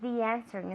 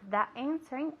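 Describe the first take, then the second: First: The two words run together without a break. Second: The two words are said with a break. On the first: The speaker calls it right. "we link the E sound with the E sound" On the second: The speaker calls it wrong. "instead of"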